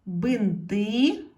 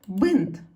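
First: Бинти with a loud, rising final И; stress on last syllable. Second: Бинт as one loud, falling syllable; stressed single vowel. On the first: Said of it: "щоб не наголошена е стала наголошеною". (наголос на останнє И у слові Бинти) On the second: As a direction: punch the И in бинт. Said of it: "стала наголошеною". (сильний наголос на И у слові бинт) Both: Shown as a demonstration.

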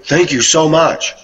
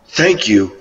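First: Much higher, slow gushing thank-you. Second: Said in the usual way. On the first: Retold or imitated. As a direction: pour out surprised gratitude, stretching it. Woman thanking for a compliment.

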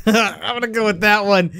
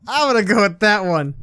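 First: Laughing through "I'm gonna go with that one". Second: Said in the usual way. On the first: Real, not acted. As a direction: chuckle while deciding on "that one".

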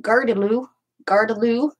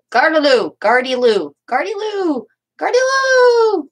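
First: Said in the usual way. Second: Loud, rising call, stretched higher each time; demonstrated French street yell. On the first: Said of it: "which is pronounced". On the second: Shown as a demonstration. Crafter showing how the French used to yell a phrase, calling out. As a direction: holler it out, building to a long high cry. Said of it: "the French used to yell that phrase".

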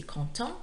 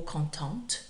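First: "content" rising, ending on a nasal vowel without T; silent T. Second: "contente" rising, with an audible T at the end; sounded final T. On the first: Teacher offering the masculine answer, "content" with silent T. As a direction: say "content" leaving the final T unsounded. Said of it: "with the silent T". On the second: Teacher offering the answer for a girl, "contente" with sounded T. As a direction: say "contente" and close firmly on the T. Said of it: "only content changes if you're a girl". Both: Shown as a demonstration.

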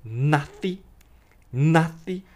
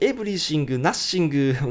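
First: "nothing" with a TH and no G; tongue out on TH. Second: "everything" and "nothing" with a G on the end; the wrong way with an extra G; katakana G. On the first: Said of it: "nothingですね". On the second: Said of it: "同じように". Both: Shown as a demonstration.

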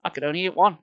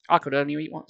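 First: ONE lifted and punched at the end; I could only eat ONE, one stressed. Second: I could only eat one with the I leaned on; I pushed forward, the rest light; stress on I. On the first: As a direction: land hard on the word one. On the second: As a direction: hit I, not one. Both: Shown as a demonstration. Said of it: "can't be".

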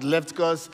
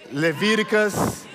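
First: Leviticus said as "LEF-t-kos", first vowel open, middle syllable dropped; Nigerian pronunciation. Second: Leviticus said fully as "le-VI-di-kus", all four syllables; careful standard pronunciation. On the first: Pastor owning his Nigerian way of saying it, quietly. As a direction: Leviticus clipped to "Leftkos" in a Nigerian way. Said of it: "Sorry, my Nigerian accent". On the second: Pastor correcting himself for the congregation, carefully. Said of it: "I don't know how you pronounce it". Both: Shown as a demonstration.

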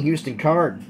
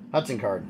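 First: Says "Houston Card" with "Houston" like the city, hew-stun; "Houston" slipped in for Hudson, said as the city name; name flubbed as "Houston"; mispronounced name. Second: "Hudson" said clearly as hud-son, quieter and lower; soft self-correction to "Hudson"; corrected name. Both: Real, not acted. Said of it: "Excuse me".

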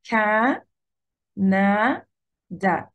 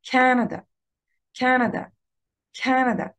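First: كا، نا، دا with long pauses between; three drawn-out, isolated syllables; split into syllables. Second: كندا as one word, CA-na-da, high on "Ca"; كندا joined up with strong first syllable; first-syllable stress. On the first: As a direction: sound out each syllable separately. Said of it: "فبقسمها كده". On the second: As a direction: punch the start of كندا, rush the rest. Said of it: "على كا". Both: Shown as a demonstration.

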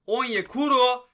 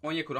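First: Higher, much louder, stretched slow; goal shout. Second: Said in the usual way. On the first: Real, not acted. Gamer yelling as Onyekuru scores, thrilled. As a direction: yell the name as it goes in.

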